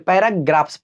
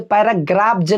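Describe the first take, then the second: First: The plural ending is a hissing s sound. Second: The plural ending is a buzzing z sound. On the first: The speaker calls it right. "पैराग्राफ्स पढ़ेंगे" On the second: The speaker calls it wrong. "ना कि पैराग्राफ जो नहीं पढ़ेंगे"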